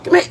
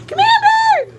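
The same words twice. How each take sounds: First: Said in the usual way. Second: Very high, sing-song coaxing call; coaxing a wild bird. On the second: Real, not acted. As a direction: coo them over gently, way up high. Coaxing someone to come close.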